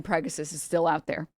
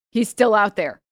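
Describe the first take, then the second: First: Said in the usual way. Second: Dramatic warning, still pressed loud; stress on still. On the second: Shown as a demonstration. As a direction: still hit louder with a falling tune.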